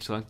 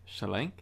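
First: It is said plainly in a normal voice. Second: It is said with a put-on accent.

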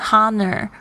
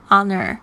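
First: The word begins with an audible h sound. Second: The word begins directly with a vowel sound. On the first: The speaker calls it wrong. "不要念成honor 会很好笑" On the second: The speaker calls it right. "这个h 是没有发音的"

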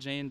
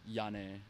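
First: The name is said the anglicized way. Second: The name is said the original way. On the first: This is the easier name used by others. "people here call me Jane" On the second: This is the speaker's real name. "but my name is, like, Jyanne"

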